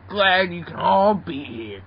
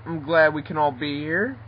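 First: Slow, stretched words with a falling end; odd drawn-out talk. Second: Said in the usual way. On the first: Acted. Grimer greeting the group, slow and peculiar delivery. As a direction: draw the greeting out oddly. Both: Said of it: "why do you talk like that".

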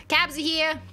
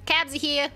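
The two takes are said the same way.

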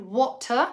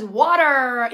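First: Water británico, wota, sin R; British water. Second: Water americano con T suave y R, waɾe; American water. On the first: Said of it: "en inglés británico se pronuncian water". (water británico sin R final) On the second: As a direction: di water como waɾer con R. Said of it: "en americano es water". (water americano con R final) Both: Shown as a demonstration.

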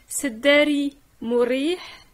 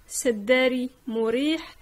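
Both takes have the same delivery.

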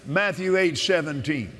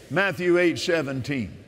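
The two takes are said the same way.

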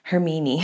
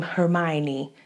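First: Hermine said her-MEE-nee; German pronunciation. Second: Hermione said her-MY-nee; English pronunciation. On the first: Unsure how the name goes, Hermine as her-MEE-nee. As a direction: put "me" in the middle of Hermine. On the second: Unsure how the name goes, Hermione as her-MY-nee. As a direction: put "my" in the middle of Hermione. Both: Shown as a demonstration. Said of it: "when you say this woman's name".

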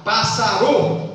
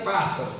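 First: "pássaro" stressed on the last syllable, as passaRÔ; wrongly shifted stress. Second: Said in the usual way. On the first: Shown as a demonstration. Teacher showing what not to say, "pássaro" stressed on final RO. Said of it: "Você não vai falar". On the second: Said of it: "a sílaba forte tá em pássaro".

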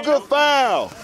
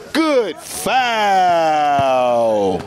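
First: Said in the usual way. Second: Long, drawn-out announcer call. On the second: Acted. Commentator filming pickup ball, drawn-out call. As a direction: stretch "Good foul" out like a broadcaster, low.

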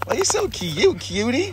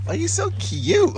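First: High cooing pet voice. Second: High, slow cooing. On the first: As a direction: coo sweetly at the puppy. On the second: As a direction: stretch it out cooing at a puppy. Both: Real, not acted. Baby talk to dogs.

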